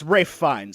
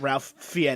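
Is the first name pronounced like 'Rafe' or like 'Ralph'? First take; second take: Rafe; Ralph. First: The first name rhymes with 'safe', no L sound. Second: The first name has a short a and L. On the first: The speaker calls it right. "it's Rafe Fiennes" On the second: The speaker calls it wrong. "not Ralph Fiennes"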